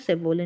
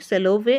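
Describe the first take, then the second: First: The v comes before the l: sa-vo-le. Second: The l comes before the v: sa-lo-vey. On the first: The speaker calls it wrong. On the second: The speaker calls it right.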